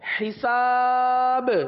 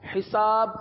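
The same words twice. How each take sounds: First: The final b is released with a bounce. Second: The final b is not clearly sounded. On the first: The speaker calls it right. "آخر میں با پر قلقلہ کریں گے" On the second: The speaker calls it wrong. "ایک حرف تو ادا ہی نہ ہوا"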